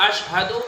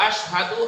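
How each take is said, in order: No difference in how they are said.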